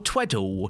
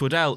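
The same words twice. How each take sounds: First: The name is said in an imitated accent. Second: The name is said in its official pronunciation. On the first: This is how someone else says the name. "Adam Pacitti, in his accent, goes" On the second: This is the official form of the name. "it is actually pronounced Tweddle officially"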